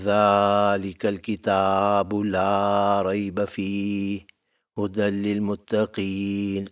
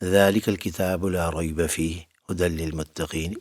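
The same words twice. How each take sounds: First: The long vowels are deliberately stretched out. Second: The long vowels are said plainly, not drawn out. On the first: "specially लंबा करना शुरू कर दूँ" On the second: "simply कह दिया"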